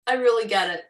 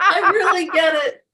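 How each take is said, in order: First: Said in the usual way. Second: High, loud, laughing as she says it; mock earnest reply cracking into laughter; laughing through it. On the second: Coach imitating herself to her class, laughing. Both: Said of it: "I'm like".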